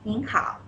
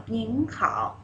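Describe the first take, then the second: First: "ning hao" modelled for repeat; polite greeting. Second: "ning hao", rising ning then dipping hao; tones together. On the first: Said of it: "we'll see". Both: Shown as a demonstration.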